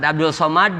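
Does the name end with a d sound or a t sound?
d sound. The name ends with a d sound. This is the standard form of the name.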